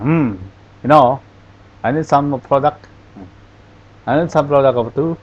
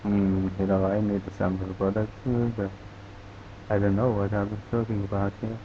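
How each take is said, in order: First: Mock Irish or Scandinavian lilt, words blurred; unclear Irish accent. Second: Softer, swallowed mumble, words run together; mumbling. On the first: Teacher mimics unclear Irish speech for class, blurred accent. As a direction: imitate a hard-to-follow Irish accent. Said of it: "saya memperagakan logatnya ini apa, Irlandia atau Skandinavia". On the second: Teacher shows the class garbled speech, soft mumble. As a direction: mumble it under your breath so it can't be understood. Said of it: "yang gelendeng". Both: Shown as a demonstration.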